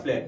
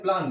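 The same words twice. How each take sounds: First: प्लान with a front e vowel, like plen; प्लान American style with a flat short vowel; American plan. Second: प्लान with a long open aa, like plaan; प्लान British style with open aa; British plan. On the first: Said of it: "American में अगर आता है". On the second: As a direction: say प्लान the British way, broad vowel. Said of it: "हम लोग भी क्या बोलते हैं". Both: Shown as a demonstration.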